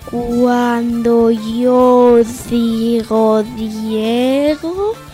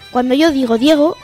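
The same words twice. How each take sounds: First: The phrase is spoken at a slow speed. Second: The phrase is spoken at a normal speed. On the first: "En velocidad lenta" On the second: "A velocidad normal"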